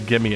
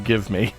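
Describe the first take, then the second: First: The two words are blended into one. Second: The two words are said fully and separately. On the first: The speaker calls it wrong. "We don't say gimme anymore" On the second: The speaker calls it right. "we say give me"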